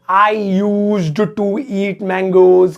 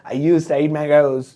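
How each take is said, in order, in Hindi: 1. 'used to' की हर ध्वनि अलग-अलग बोली जाती है। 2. 'used to' को 'yusta' की तरह जोड़कर बोला जाता है।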